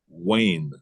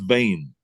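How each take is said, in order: First: The name begins with a W sound. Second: The name begins with a V sound. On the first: The speaker calls it right. "My name is [name]" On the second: The speaker calls it wrong. "it's not Vane"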